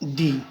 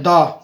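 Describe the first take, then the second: First: The vowel is full and clearly pronounced. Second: The vowel is short and reduced. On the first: "जो strong form होती है वो है दी" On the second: "इसकी जो weak form होती है वो होती है दा"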